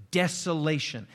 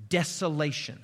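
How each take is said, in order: Both takes have the same delivery.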